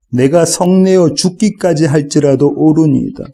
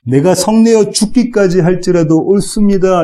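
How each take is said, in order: First: Said in the usual way. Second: Pitched higher, 성내어 leaned on defiantly; stubborn Jonah. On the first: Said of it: "구 절 하반절 보실까요?". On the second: Acted. Preacher voicing Jonah defying God, stubborn and higher. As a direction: Jonah talking back to God, mildly acted. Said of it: "이렇게 지금 요나가 대답합니다".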